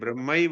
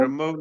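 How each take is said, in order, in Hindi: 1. शब्द का अंत 'aiva' ध्वनि से होता है। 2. शब्द का अंत 'au' ध्वनि से होता है। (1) "ये ब्रह्मैव है" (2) "ब्रह्मऊ नहीं है"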